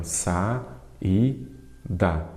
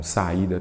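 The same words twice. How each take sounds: First: "Sa, i, da" with clear gaps between syllables. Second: Said in the usual way. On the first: Shown as a demonstration. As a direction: split saída into three separate beats, Sa, i, da. ("Sa, i, da" dito sílaba por sílaba, com pausas) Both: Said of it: "Sempre dou esses exemplos também".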